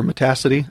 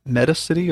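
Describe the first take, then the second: First: Metacity as muh-TASS-ih-tee; second-syllable stress. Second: Metacity as MET-uh-sit-ee; first-syllable stress. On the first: Unsure teacher offers the other pronunciation of the window manager, Metacity as muh-TASS-ih-tee. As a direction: stress the TA in Metacity, rhyming with audacity. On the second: Unsure teacher offers one pronunciation of the window manager, Metacity as MET-uh-sit-ee. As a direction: stress the front of Metacity, saying "meta" plus "city". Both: Shown as a demonstration. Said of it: "I don't know how you pronounce it".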